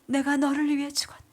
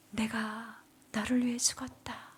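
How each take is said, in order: First: Whispered divine words, a little firmer; solemn echo of the holy voice; breathy reverent repetition; voice of Jesus. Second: Whispered, solemn divine voice; soft reverent whisper of Jesus. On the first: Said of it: "이 음성이 저에게 들려지는 거예요". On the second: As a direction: hush it like a holy voice. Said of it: "음성이 들렸습니다". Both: Retold or imitated.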